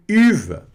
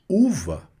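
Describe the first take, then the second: First: "uva" misread with a French u, like "iva". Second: Said in the usual way. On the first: Shown as a demonstration. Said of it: "Quase que eu li isso aqui como uva". ("uva" lido errado, como "iva") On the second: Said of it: "não é uva".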